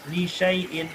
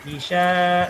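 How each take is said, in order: First: "Li syai'in" with a short "sya" gliding on; correct short reading. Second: "li sya" with the "sya" held long; wrongly lengthened. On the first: Teacher models the right reading, short "Li syai'in". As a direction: keep "syai'in" unstretched. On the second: Teacher shows the mistake to avoid, long "li sya". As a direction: stretch the a of "li sya", louder. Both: Shown as a demonstration. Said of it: "jangan dibaca panjang".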